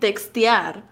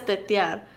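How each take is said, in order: First: The x sound in the middle is pronounced. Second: The x sound in the middle is dropped. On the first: "turns out he's saying textear" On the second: "he's just saying tetear"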